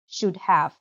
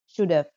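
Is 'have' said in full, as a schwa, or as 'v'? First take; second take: full; v. First: The word 'have' is said in full. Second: The word 'have' is reduced to a 'v' sound.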